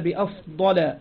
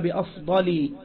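First: The word ends in an 'a' vowel sound. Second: The word ends in an 'i' vowel sound. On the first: It follows the diptote exception. "لكنه قال بأفضل منه" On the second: It follows the usual genitive ending rule. "الأصل أن يقول بأفضل"

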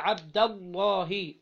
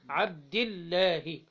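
First: The L in Allah sounds thick and heavy. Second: The L in Allah sounds thin and light. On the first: "كانت مفتوحة أو مضمومة يبقى تفخم بعدها" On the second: "فلما كانت مكسورة بعدها الألف إيه؟ الألف تكون مرقق"

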